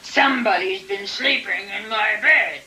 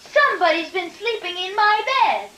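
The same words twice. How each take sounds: First: It is said in a big, gruff voice. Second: It is said in a tiny voice.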